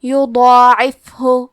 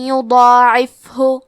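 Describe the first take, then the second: First: یضاعف ہو میں ضاد اور الف کو موٹی بھاری آواز میں; ضاد اور مد الف کو پُر کر کے آہستہ. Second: یضاعف ہو میں یا پر ادغام بغنہ، آہستہ; حسنا کے بعد یا میں غنہ سے ملا کر; غنہ اور تشدید. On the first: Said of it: "ضاد کو اور مد الف کو دونوں کو بھاری آواز". (ضاد اور الف کی تفخیم کے ساتھ) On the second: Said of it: "غنہ اور تشدید کے ساتھ". (ادغام بغنہ کے ساتھ یضاعف ہو) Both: Shown as a demonstration.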